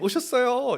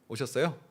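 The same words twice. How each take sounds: First: It is said high-pitched and delighted. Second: It is said flat and indifferent. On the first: The greeter is truly glad to see the person. The speaker calls it right. "일단 하이톤으로 너무나 그 반가움을 그렇게 표현합니다" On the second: The greeter feels little joy at the meeting. The speaker calls it wrong. "별로 감동이 없어요"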